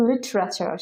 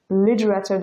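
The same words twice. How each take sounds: First: লিটারেচার with a clear t; familiar standard form. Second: লিটারেচার with the t turned to d; flapped t. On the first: Teacher recalling the form learners know, লিটারেচার with a hard t. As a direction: keep a true t in লিটারেচার. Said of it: "আমরা সবসময় জেনে এসেছি". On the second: Teacher showing the confusing native form, লিটারেচার with a flapped d. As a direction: say লিটারেচার as "lidrachar". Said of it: "লিটারেচার যখন বলবে আপনার brain confused". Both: Shown as a demonstration.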